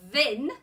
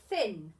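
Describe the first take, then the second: First: "thin" begun with the buzzing th of "this"; thin with voiced th. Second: "thin" begun with the airy th of "thumb"; thin with unvoiced th. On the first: Teacher blends the wrong sound, loud voiced-th "thin". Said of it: "I don't know a word that means thin". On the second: Teacher blends the right sound, lower unvoiced-th "thin". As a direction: blend "thin" with a voiceless th, pitch falling. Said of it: "I'll try it with the other sound". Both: Shown as a demonstration.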